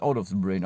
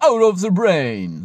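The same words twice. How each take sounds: First: Said in the usual way. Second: High, loud and slow, as if reversed; "out of the brain" sung out high and slow like reversed tape; backwards speech. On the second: Shown as a demonstration. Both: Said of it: "So muss ich jetzt out of the brain auch sagen".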